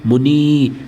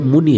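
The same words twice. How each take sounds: First: The final i vowel is long. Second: The final i vowel is short. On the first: The speaker calls it wrong. "लेकिन बोलते हैं ऐसे मुनि, तो बड़ी की मात्रा" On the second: The speaker calls it right. "लिखते टाइम छुटी की मात्रा लगती है"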